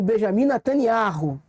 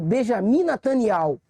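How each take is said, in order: First: The name is said with a foreign pronunciation. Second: The name is said with a Hebrew pronunciation. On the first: This is how the name is known outside the country. "nos lugares fora de Israel, ele é conhecido como" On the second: This is how the name is known inside the country. "Mas dentro de Israel, ele é conhecido como"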